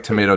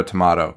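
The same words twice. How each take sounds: First: "tomato" with a long A, toh-MAY-toh; tomato one way. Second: "tomato" with a broad AH, toh-MAH-toh; tomato the other way. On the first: Explaining to co-host how tomato is said, toh-MAY-toh. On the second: Contrasting for co-host the other tomato, toh-MAH-toh. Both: Shown as a demonstration. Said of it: "I think it's, like".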